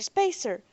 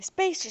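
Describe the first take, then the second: First: Distant crowd cry, lower. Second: Distant crowd cry, higher. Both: Acted. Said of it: "hearing voices crying".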